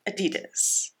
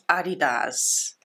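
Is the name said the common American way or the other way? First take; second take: American; other. First: It uses the common American pronunciation. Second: It uses the non-American pronunciation. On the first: The speaker calls it wrong. "Americans, ... not Adidas" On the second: The speaker calls it right. "it is Adidas"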